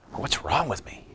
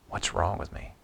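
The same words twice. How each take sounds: First: Higher and softer, pleading with himself; anguished self-question. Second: Unvoiced whisper, almost to himself; whispered self-reproach. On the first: Retold or imitated. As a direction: ask it as if stunned at yourself. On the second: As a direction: breathe the question out in private shame. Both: Pastor voicing his own inner self-reproach.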